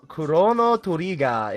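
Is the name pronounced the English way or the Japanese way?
Japanese. The name is pronounced with Japanese sounds.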